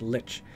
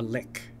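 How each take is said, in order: First: The word ends with a ch sound. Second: The word ends with a k sound. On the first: The speaker calls it right. "but it's Lich" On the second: The speaker calls it wrong. "I was pronouncing Lich a lick"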